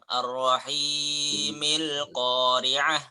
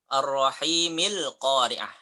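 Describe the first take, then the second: First: The vowel in rahim is drawn out long. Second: The vowel in rahim is held short. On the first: The speaker calls it wrong. "Jangan panjang-panjang. ... Enggak" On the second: The speaker calls it right. "Kalau disambung jadi dua ya"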